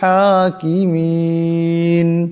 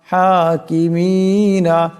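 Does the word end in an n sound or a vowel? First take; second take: n; vowel. First: The word ends on the n sound. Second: The word ends with a final vowel. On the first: The reader stops at this word. "এখানে দম সারলে হা সা নুন সাকিন হয়ে যাবে" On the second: The reading continues without a stop. "নুন জবর না"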